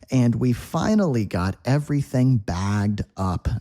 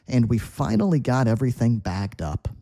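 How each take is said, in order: First: It is read slowly and carefully. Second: It is read quickly at natural speed.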